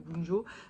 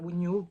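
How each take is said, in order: First: The middle consonant sounds like a French j. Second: The middle consonant sounds like a y. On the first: The speaker calls it wrong. "moi je continue à dire Wunjo" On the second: The speaker calls it right. "logiquement ça se prononcerait Wunio"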